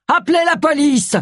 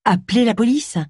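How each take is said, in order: First: High-pitched cry for help; shouted alarm. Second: Raised, questioning pitch, mildly accusing; incredulous echo. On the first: A narrator's reading. Charles shouts for someone to call the police, high alarmed cry. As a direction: call out urgently, voice jumping up. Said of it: "cria Charles". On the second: Acted. Agatha turns on Charles over his cry, incredulous echo. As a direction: throw the words back as a disbelieving question.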